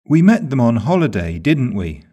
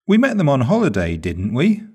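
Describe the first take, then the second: First: "didn't we?" with a falling tune, expecting agreement; "didn't we?" said falling, as a confirmation; falling tag. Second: "didn't we?" rising on "we", a real question; "didn't we?" rising like a genuine question; rising tag. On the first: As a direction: let "didn't we?" drop at the end, sure of the answer. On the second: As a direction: lift "we" up at the end, unsure. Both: Shown as a demonstration. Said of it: "The intonation used on the question tag shows the speaker's attitude".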